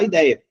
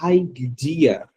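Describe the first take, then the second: First: The word has Portuguese pronunciation. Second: The word has English pronunciation. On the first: "a pessoa não vai falar ideia" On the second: "A pronúncia sai idea"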